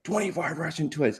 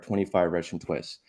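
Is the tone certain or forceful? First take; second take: forceful; certain. First: It is said with force, pushing hard. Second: It is said calmly, with quiet certainty. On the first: People resist and do not want to listen. The speaker calls it wrong. "if you say it with any force, like you're trying to make people do it" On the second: People happily go along with it. The speaker calls it right. "If I say it with certainty"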